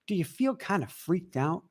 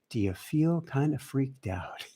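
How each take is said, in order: First: The question is said forcefully. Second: The question is said gently.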